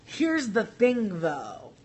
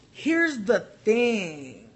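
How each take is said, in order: First: Said in the usual way. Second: Drawn out. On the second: Real, not acted. Emphatic slow setup.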